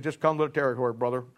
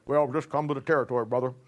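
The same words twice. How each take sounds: First: Said in the usual way. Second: Imitating Ruckman. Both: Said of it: "But this is how he said it".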